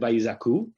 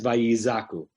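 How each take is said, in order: First: It carries the ordinary, non-pausal stress. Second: It carries the shifted, pausal stress. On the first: The word is not at a pause in the verse. "in any other place in the verse ... it would have just been vayizaku" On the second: The word stands at a pause in the verse. "because it's on the etnachta, you have to pause there, it's read as"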